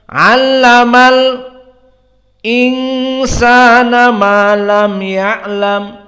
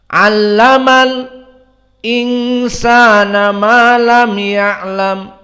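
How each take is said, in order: First: A brief silent stop comes before the glottal stop. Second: A brief silent stop comes before the glottal stop.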